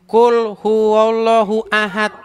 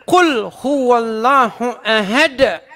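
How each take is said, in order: First: It is said with plain Indonesian-style sounds. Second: It is said with Arabic-style sounds. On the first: The speaker calls it wrong. "Saya bacanya begini" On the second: The speaker calls it right. "Bacanya harus begini"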